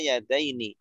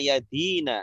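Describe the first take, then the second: First: The ending is 'ai' diphthong then 'ni'. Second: The ending is a long 'ee' then 'na'. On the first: The word is read as a dual. "Bisa juga dibaca yadaini" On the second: The word is read as a masculine plural. "bisa dibaca yadina"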